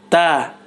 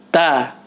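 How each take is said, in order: First: Air audibly flows out with the consonant. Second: Air audibly flows out with the consonant.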